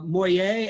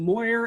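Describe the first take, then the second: First: The name is said in a French way. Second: The name is said in an anglicized English way. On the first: This is how the original French settlers said it. "they would pronounce them uh, Moyer" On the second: This is how locals say it today. "we pronounce them Moyer and Boyer"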